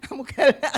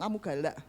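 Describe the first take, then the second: First: Louder playful accusation; mock accusing her strict leader; teasing call. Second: Quiet teasing. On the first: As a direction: throw it back at her laughing. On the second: Retold or imitated. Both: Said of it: "Ya saya selalu ngomong".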